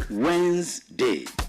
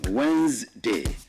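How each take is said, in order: First: It sounds like two syllables, wenz-day. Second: It sounds like two syllables, wenz-day.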